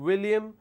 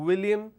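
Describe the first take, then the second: No difference in how they are said.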